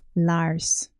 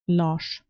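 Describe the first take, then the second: First: The name is pronounced the English way. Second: The name is pronounced the Danish way.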